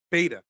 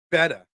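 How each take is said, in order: First: "Beta" with a long ay vowel, "BAY-ta"; corrected Beta. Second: "Beta" with a short e, like "betta"; mispronounced Beta. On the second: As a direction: say "Beta" to rhyme with "better". Says the word, then corrects pronunciation. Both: Real, not acted.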